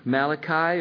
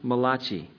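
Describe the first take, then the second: First: The name is said in a plain English way. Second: The name is said with an Italian-style pronunciation.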